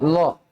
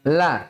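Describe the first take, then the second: First: The L is heavy, with a rounded vowel. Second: The L is light, with an open vowel. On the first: The speaker calls it wrong. "Jangan sampai berubah menjadi lo ya" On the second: The speaker calls it right. "la tipis"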